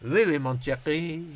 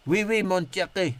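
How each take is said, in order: First: Slower mock French accent; slow hint of a put-on French accent; slower French phrase. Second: Mock French accent, lightly; hint of a hammed French accent; French phrase. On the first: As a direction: drag out schoolboy French, half-hearted. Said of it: "all I can do is". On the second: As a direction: toss off a schoolboy French line. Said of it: "that's my French". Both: Shown as a demonstration.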